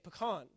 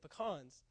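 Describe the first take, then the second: First: It is said in the speaker's home accent. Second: It is said the Texas way.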